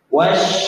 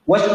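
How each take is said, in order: First: The consonant flows out with spreading breath. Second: The consonant is cut off abruptly without breath. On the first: The speaker calls it right. "yang benar kontak alif" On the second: The speaker calls it wrong. "Kalau hentak langsung seperti ini"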